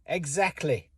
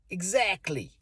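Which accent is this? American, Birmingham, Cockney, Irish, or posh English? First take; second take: posh English; American. First: It is said in a posh English accent. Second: It is said in an American accent. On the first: "In posh English, this is" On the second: "In America, they'd say"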